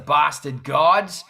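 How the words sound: It is said in an Australian accent. "In Australia, it's the Bastard Gods"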